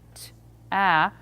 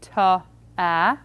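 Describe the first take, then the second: First: The two sounds are said as separate units. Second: The consonant carries an extra vowel, then another. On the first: "look at them as individual units and saying t, a" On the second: "or worse yet, ta, a"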